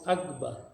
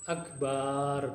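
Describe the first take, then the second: First: The vowel after the b is short. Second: The vowel after the b is drawn out long. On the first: It means the greatest. The speaker calls it right. "Harus dibaca Allahu Akbar" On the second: It means a drum instead of the greatest. The speaker calls it wrong. "kalau dipanjangkan jadi gimana? Akbar begitu. Nggak boleh"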